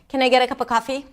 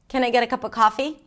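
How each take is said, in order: First: Low, flat pitch with little variation. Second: Low, flat pitch with little variation.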